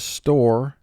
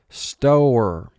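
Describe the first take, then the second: First: The vowel is said in its ordinary way. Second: The vowel is drawn out and exaggerated.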